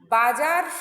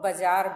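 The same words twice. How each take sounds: First: The first vowel is said long. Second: The first vowel is said short. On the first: "बाजार शब्द है" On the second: "एक दीर्घ मात्रा को ह्रस्व कर लेता है"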